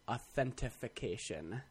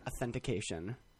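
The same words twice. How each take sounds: First: The word is said with an added f sound. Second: The word is said without any f sound. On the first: The speaker calls it wrong. "with a f in there" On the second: The speaker calls it right. "That is the correct way to say the word"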